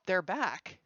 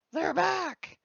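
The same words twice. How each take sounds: First: Said in the usual way. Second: High, loud call of relief; excited cheer. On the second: Real, not acted. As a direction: sing out the good news, high and loud. Captions return, host cheers loudly.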